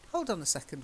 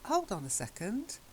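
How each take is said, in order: First: It sounds assertive and argumentative. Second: It sounds puzzled and questioning. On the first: The speaker wants to challenge the other person. "That starts to be more assertive, more argumentative" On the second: The speaker does not understand. "sort of querying. I'm I'm sounding a bit confused"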